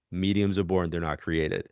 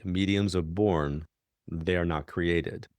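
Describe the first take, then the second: First: Level, unmoved restatement; deadpan repetition. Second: Slow, each word set down firmly; emphatic statement. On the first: Colleague looking her in the face, repeating it deadpan. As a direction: say it dead straight, no give at all. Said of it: "looked me dead, deadpan in the face". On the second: Colleague insisting to the medium that mediums are born, slow and emphatic. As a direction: lay it down like settled fact. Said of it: "she said emphatically". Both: Retold or imitated.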